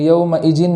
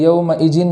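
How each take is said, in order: First: The middle consonant sounds like j. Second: The middle consonant sounds like j.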